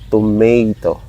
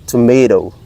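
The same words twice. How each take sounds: First: It is said with a Filipino English accent. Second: It is said with an American accent, soft D-like T. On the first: "Here in the Philippines, Filipinos uh, tend to say tomato" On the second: "the T at the ending part of the toe become dough, D"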